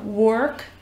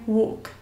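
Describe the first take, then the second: First: It is said with an American accent. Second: It is said with a British accent.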